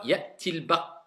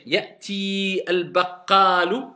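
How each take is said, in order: First: Ya'ti al-baq- linked as ya'til-baq with short i; liaison, not prolonged. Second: Ya'ti held long, then separate al-baqalu; prolonged, without liaison. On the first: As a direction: go straight from Ya'ti into the l. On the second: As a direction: stretch the ee of Ya'ti before al-baqalu. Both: Shown as a demonstration. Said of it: "est-ce que j'ai prolongé?".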